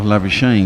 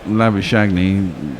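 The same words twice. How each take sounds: First: The name does not end with a 'nee' sound. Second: The name ends with a 'shagney' sound. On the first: This is how the player says his own name. "He just calls himself Labuschagne" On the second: This is how the spelling reads to an English speaker. "sort of looks like to an Englishman"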